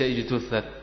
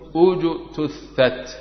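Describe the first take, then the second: First: The word begins with an 'i' vowel. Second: The word begins with an 'u' vowel. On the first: The speaker calls it wrong. "وليس" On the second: The speaker calls it right. "نضمم همزة الوصل"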